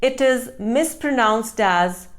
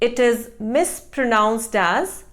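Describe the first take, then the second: The two takes are said the same way.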